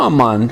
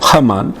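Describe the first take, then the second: First: The name starts with a vowel, no h. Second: The name starts with an audible h sound.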